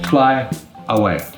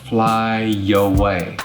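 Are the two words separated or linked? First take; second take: separated; linked. First: Each word is said separately, without linking. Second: A y sound links fly to away. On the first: "By itself" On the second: "But together"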